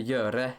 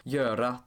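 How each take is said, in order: First: "göre" ending in an E sound; Norwegian ending. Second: "göra" ending in an A sound; Swedish ending. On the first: Narrator contrasting Norwegian word endings with Swedish, Norwegian ending. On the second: Narrator contrasting Swedish word endings with Norwegian, Swedish ending. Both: Shown as a demonstration. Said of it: "the Norwegian equivalent".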